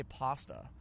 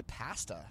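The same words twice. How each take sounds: First: "pasta" with a broad ah; "pasta", first vowel like "father"; non-Canadian pronunciation. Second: "pasta" with a short a as in "cat"; Canadian "pasta", first vowel like "pan"; Canadian pronunciation. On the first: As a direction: say "pasta" as PAH-stuh. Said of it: "We don't say pasta". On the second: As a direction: say "pasta" as PASS-tuh. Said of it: "see, I'm Canadian". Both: Shown as a demonstration.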